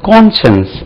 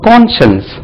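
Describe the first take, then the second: The two takes are said the same way.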